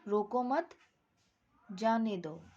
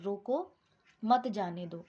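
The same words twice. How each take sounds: First: There is a pause after मत. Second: There is a pause after रोको.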